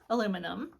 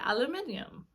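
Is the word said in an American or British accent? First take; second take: American; British. First: It is said in an American accent. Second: It is said in a British accent. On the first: "what we would say" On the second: "they say"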